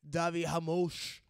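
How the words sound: The name has a Brazilian Portuguese pronunciation. This is how the announcers said it. "They were saying like"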